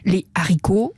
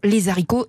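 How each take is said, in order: First: No z sound links les to haricots. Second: A z sound links les to haricots. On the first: The speaker calls it right. "pas de liaison" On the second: The speaker calls it wrong. "et non les haricots"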